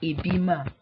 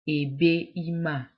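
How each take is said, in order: First: The first vowel drops and the words join smoothly. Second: Both vowels are kept with a short break. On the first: The speaker calls it right. "ebima is more is smoother" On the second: The speaker calls it wrong. "there is a short pause there"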